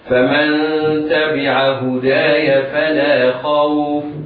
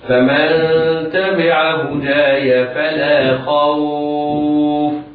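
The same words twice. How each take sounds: First: The vowel in the last word is not lengthened. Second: The vowel in the last word is moderately lengthened. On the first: "سقوط المد" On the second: "التوسط بمقدار أربع حركات"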